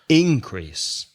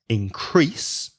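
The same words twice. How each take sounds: First: The stress is on the first syllable. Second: The stress is on the second syllable. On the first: It is used as a noun. "has the stress on the first syllable" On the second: It is used as a verb. "the verb to increase has the stress on the second syllable"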